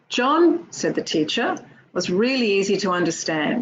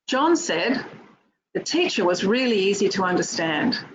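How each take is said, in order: First: Pauses set off the words said the teacher. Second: It runs on with no pause after John. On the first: The teacher is the one speaking. "we only hear sip. And it sounds like this" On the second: John is the one speaking. "which looks like this"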